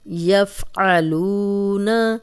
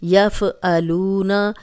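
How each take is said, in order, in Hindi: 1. f को रोका जाता है, उसके बाद हलक़ी ऐन है। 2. f पर हरकत है, उसके बाद हमज़ा है। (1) "यफ़ आ आइन है" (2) "यहाँ पे हम इसको ऐसे नहीं पढ़ सकते ... एक तो फ़ा हिल गया, दूसरा ये हमज़ा बन गया"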